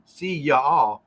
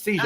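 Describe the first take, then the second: First: Said in the usual way. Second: "See y'all" run together as "see-zhall"; South Carolina slurring. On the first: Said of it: "instead of saying". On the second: Retold or imitated. Man imitating a South Carolina guy, "See y'all" squashed to "see-zho". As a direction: slur "See y'all" into one quick zh-word. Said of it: "he goes".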